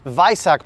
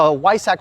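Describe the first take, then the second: First: It is pronounced with a German accent. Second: It is pronounced with an English accent.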